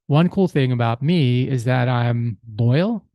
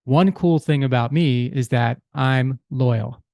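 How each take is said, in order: First: Slow, the end rising on "loyal" like a question; unsure, asking "one cool thing about me is that I'm loyal" upward; rising question tune. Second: Slow, settled, falling on "loyal"; firm statement. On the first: Husband trying his first cool thing on his wife, rising like a question. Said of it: "That sounds like a question". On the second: Husband retrying his cool thing for his wife, now firm and falling. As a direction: state "One cool thing about me is that I'm loyal" with conviction. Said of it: "That's more like it". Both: Shown as a demonstration.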